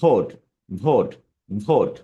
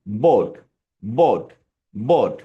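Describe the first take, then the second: First: ভোট started with upper teeth on lower lip; spaced repeats of ভোট with a V, not B. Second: বোট started with both lips closed; spaced repeats of বোট with a clean two-lip B. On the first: Teacher contrasting vote and boat, ভোট begun on teeth and lip. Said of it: "But যখন ভোট উচ্চারণ করব". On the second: Teacher contrasting boat and vote, বোট begun with both lips together. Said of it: "দুই ঠোঁট দিয়ে". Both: Shown as a demonstration.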